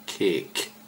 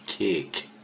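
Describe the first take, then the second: First: The vowel is long, like in 'cake'. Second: The same.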